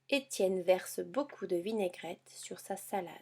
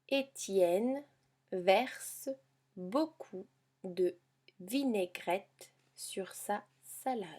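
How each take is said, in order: First: The sentence is read at a faster pace. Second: The sentence is read at a slower pace.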